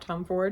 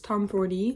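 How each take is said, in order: First: The name ends on a d sound. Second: The name ends with an extra ee syllable. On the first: The speaker calls it wrong. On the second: The speaker calls it right. "I've heard it's"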